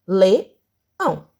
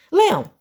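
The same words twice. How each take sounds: First: "leão" slowly split in two with a pause; syllable by syllable. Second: Said in the usual way. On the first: Shown as a demonstration. Teacher showing pupils how to separate, "leão" said syllable by syllable. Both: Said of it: "nós vamos separar a sílaba".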